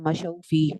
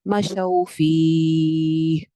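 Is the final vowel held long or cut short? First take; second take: short; long. First: The final vowel is cut short at the stop. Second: The final vowel is drawn out long at the stop. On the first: The speaker calls it wrong. "इतना छोटा सा ना करें" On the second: The speaker calls it right. "प्यारा लगेगा कि अगर आप इसको लंबा करके रुकेंगे"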